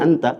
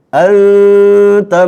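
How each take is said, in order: First: The n is pronounced plainly and fully. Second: The n is hidden into a nasal sound. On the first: It is ordinary everyday speech. "kalau dalam percakapan sehari-hari" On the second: It is recitation of the Quran. "Nun sukun ketemu ta. Ikhfa"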